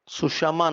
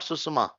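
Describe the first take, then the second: First: The middle consonant is an 'sh' sound. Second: The middle consonant is a plain 's' sound. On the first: The speaker calls it right. "It will become sushama" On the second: The speaker calls it wrong. "not susuma"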